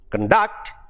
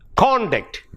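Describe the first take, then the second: First: The stress is on the second syllable. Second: The stress is on the first syllable. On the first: It is a verb. "it becomes a verb" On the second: It is a noun or adjective. "is either a noun, if it is in the first syllable"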